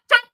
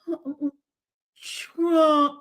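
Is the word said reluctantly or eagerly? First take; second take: eagerly; reluctantly. First: It is said quickly and keenly, repeated. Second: It is said hesitantly, as if painful.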